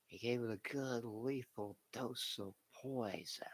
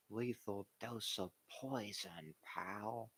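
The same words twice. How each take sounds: First: Whispery, raspy villain boss voice; Vince McMahon impression. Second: Lightly voiced slow old owner; Jerry Jones impression. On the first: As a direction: hiss it like a scheming wrestling boss. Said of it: "let me see if I can do a good Vince impression". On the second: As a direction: drag it out like a folksy team owner. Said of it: "This is Jerry's version of a good".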